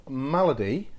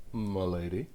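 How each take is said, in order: First: Malady stressed on the first syllable, MAL-uh-dee; Malady with a short first A, unstressed middle; standard pronunciation. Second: Malady said like "m'lady", muh-LAY-dee; softer, lower Malady with a long AY in the middle; playful respelling. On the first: Real, not acted. Same word said two ways. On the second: Pretend. Card name repeated as wordplay.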